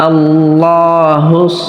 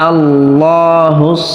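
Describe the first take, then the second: The two takes are said the same way.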